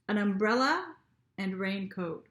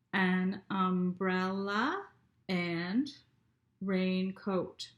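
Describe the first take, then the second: First: Said in the usual way. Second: Umbrella and raincoat drawn out slowly, beat by beat; teacher counting syllables slowly. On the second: Shown as a demonstration. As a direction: stretch each syllable to count it. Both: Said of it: "let's read it again and count".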